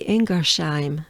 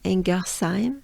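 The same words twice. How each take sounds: First: It is said with a German accent. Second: It is said with a French accent. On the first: "the German way would be" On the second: "is the French way"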